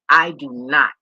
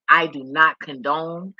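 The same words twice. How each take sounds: First: Louder, blurted start, then cut off. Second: "I do not condone" said slowly, each word weighed; slow, emphatic restatement. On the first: Starting a firm statement, loud, then breaking off. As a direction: blurt it out and stop short. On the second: Repeating herself to viewers, slow and emphatic. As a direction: lay it down word by word. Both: Real, not acted. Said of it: "Imma say it again".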